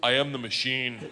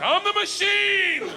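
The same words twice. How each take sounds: First: Said in the usual way. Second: High, loud, slow proud yell; much higher, drawn-out declaration; triumphant shout. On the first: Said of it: "all I said to him in Russian". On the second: Retold or imitated. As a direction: bellow it like a battle cry. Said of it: "I was like".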